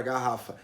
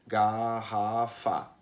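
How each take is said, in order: First: Said in the usual way. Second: "garrafa" very slowly as ga, rra, fa, evenly weighted; syllable by syllable. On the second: Shown as a demonstration. Teacher shows students how people divide a word, "garrafa" slowly syllable by syllable. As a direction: split "garrafa" into three drawn-out syllables. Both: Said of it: "falar bem devagarinho pra fazer a divisão".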